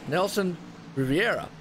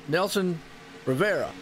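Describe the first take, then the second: First: The surname is said as Riviera. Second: The surname is said as Rivera. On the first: The speaker calls it right. "It's Nelson Riviera" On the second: The speaker calls it wrong. "I used to call him Nelson Rivera"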